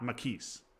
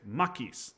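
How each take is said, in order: First: The stress is on the second syllable. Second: The stress is on the first syllable. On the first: The speaker calls it wrong. "not Makis" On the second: The speaker calls it right. "You you emphasize the ma"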